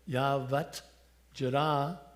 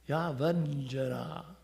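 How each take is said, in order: First: The words stay separate with a hard t. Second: The words merge into one with a softened sound. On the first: "Instead of Yavat Jara" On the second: "it makes the sound of it so much more beautiful"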